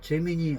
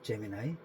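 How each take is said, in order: First: The middle vowel sounds like "ee". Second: The middle vowel sounds like "eye". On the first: This is how people in Korea say it. "한국에서는 제미니라고 하고" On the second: This is how people abroad say it. "외국 사람들은 제미나이라고 발음한다더라고요"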